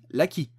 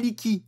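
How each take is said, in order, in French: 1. La première voyelle est un son 'a'. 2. La première voyelle est un son 'i'. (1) "on dit Laki" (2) "On dit pas Liki"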